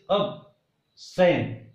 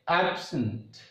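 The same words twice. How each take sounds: First: The stress is on the second syllable. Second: The stress is on the first syllable. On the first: It is a verb. "So here first syllable becomes weak and second becomes strong" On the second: It is a noun or adjective. "Here ab becomes strong and sant becomes weak"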